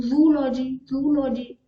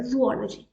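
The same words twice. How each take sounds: First: जूलॉजी said as zoo-lo-gy, the o swallowed; wrong pronunciation. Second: जूलॉजी said as zoo-o-lo-gy with a clear o; correct pronunciation. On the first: Teacher showing the common wrong जूलॉजी. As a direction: clip जूलॉजी into zoo-logy. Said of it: "जूलॉजी अगर मैं बोल दूँ". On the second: Teacher giving the right way to say जूलॉजी. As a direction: model जूलॉजी cleanly as zoo-ology. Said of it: "अब जूलॉजी बोलते हैं". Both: Shown as a demonstration.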